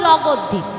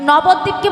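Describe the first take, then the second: First: The word begins with an L sound. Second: The word begins with an N sound. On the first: A small child with unclear speech is saying it. The speaker calls it wrong. "ছোট ছোট ছেলে মেয়ে তো ভাষা পরিষ্কার হয়নি" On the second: This is the place name said correctly. The speaker calls it right. "ওই নবদ্বীপকে বলছে"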